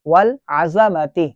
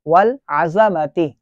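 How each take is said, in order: First: A short a vowel follows the z sound. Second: A short a vowel follows the z sound.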